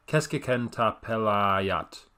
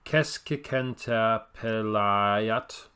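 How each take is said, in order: First: Keskikentapelayat said slowly, first syllable stressed, falling at the end; a second, surer go at keskikentapelayat, KES stressed, tune falling; Finnish word, steadier. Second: Keskikentapelayat said very slowly, first syllable stressed, rising at the end; Finnish word, slow. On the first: Vlogger retrying the Finnish word, slower and settling down. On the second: Vlogger attempting the Finnish word for midfielder, slow and careful. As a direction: sound out keskikentapelayat slowly with weight on KES.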